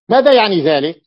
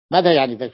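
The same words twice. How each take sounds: First: Louder, punching ماذا hard; teacher's raised question ماذا يعني ذلك to the class; emphatic question. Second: Said in the usual way. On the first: Shown as a demonstration. Teacher asks students loudly, stressing ماذا.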